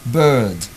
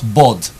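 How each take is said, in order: First: The vowel is long. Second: The vowel is short. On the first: The speaker calls it right. "it's a long sound" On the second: The speaker calls it wrong. "When you say bod, that's a short sound"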